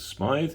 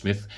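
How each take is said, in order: First: The vowel sounds like 'eye', rhyming with 'scythe'. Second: The vowel sounds like 'ih', rhyming with 'with'. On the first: "maybe you pronounce it as Smythe" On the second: "but I think it's Smith"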